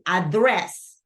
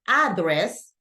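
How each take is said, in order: First: The stress is on the second syllable. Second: The stress is on the first syllable. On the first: The speaker calls it right. "the stress syllable go in the second syllable" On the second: The speaker calls it wrong. "instead of saying"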